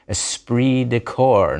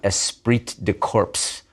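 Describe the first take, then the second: First: Corps ends without its final consonant sounds. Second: Corps ends with its final consonant sounds pronounced. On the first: The speaker calls it right. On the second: The speaker calls it wrong. "not esprit de corps"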